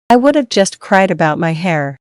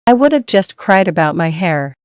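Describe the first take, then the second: No difference in how they are said.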